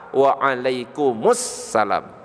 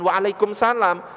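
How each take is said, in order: First: It is said in full, without the shortened 'kumsalam'. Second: It is said short, as 'kumsalam'. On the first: The speaker calls it right. "Lafaz yang benar waalaikumsalam" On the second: The speaker calls it wrong. "Bukan waalaikumsalam / Enggak benar kumsalam itu"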